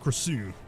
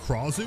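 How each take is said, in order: First: The stress is on the second syllable. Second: The stress is on the first syllable.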